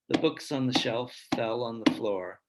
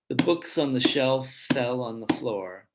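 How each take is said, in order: No difference in how they are said.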